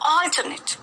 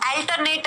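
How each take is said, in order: First: The first vowel is an open 'aw' sound. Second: The first vowel is a short 'uh' sound. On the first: The speaker calls it right. "यहां पर ऑ की ध्वनि का उच्चारण किया गया है" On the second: The speaker calls it wrong. "अल्टरनेट नहीं है"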